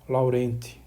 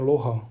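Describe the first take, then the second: First: The name is read with Portuguese pronunciation. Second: The name is read with French pronunciation. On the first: "Se a gente fosse ler em português, seria Laurent" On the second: "foi um matemático francês, então por isso que a pronúncia ... tô fazendo é Loran"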